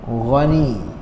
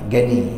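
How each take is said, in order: First: The word begins with a throaty gh sound. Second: The word begins with a plain hard g sound. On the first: This is the original Arabic form of the name. The speaker calls it right. "Jadi yang yang sahihnya apa?" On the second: This is how Malay speakers commonly say the name. The speaker calls it wrong. "Orang Melayu kita panggil Gani"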